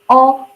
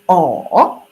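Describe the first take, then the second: First: It is said with the first tone. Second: It is said with the third tone. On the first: "the first one like O" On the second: "Third tongue will be O"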